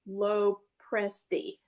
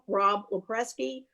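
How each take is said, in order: First: The name is pronounced in an Italian-sounding way. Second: The name is pronounced in a Polish-sounding way. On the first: The speaker calls it right. "That's perfect" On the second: The speaker calls it wrong. "You made me Polish instead of Italian"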